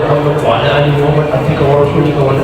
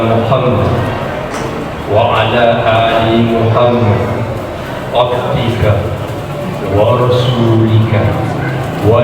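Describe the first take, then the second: First: It is recited quickly. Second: It is recited slowly and carefully. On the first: These are the repeated recitations that may be hurried. "tidak apa-apa tujuh puluh sembilan cepat" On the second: This is the final recitation, done with full attention. "salawat yang ke delapan puluh pacuai bacaan"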